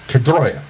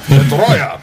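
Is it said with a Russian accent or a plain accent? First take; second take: plain; Russian. First: It is said in the speaker's plain accent. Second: It is said in a put-on Russian accent.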